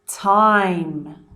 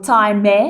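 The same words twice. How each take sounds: First: The word ends on the m sound. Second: An extra vowel sound follows the m. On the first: The speaker calls it right. "I do not pronounce the e sound" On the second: The speaker calls it wrong. "I don't go gate or time"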